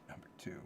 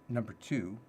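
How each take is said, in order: First: Breathy whispered echo of the heading. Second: Said in the usual way. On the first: Shown as a demonstration. Echoing his own list heading in a whisper. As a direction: whisper it like a secret. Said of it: "repeats it in a whisper". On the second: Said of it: "repeats it, then whispers it".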